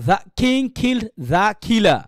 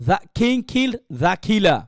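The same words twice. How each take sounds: The two takes are said the same way.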